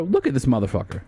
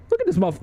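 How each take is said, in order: First: Said in the usual way. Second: High mock take. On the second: Shown as a demonstration. Anyone mocking a guy, squeaky high. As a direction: Look pitched way up in a playful squeal. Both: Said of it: "you can go".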